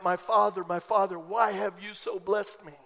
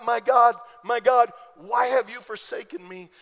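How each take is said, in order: First: Grateful cry. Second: Loud anguished cry, louder on each my God. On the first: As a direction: let it fall gently in thankful wonder. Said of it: "so that you and I can cry out". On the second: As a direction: call out to God in anguish, full voice. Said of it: "Jesus cried out". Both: Retold or imitated.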